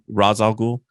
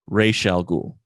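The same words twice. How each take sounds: First: The name has an Arabic-style pronunciation. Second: The name has an anglicized pronunciation. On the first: This follows the original language of the word. "Arabic pronunciation of the word is actually more" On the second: This is how the comic's creator meant it. "the guy who created the character intended for it to be pronounced"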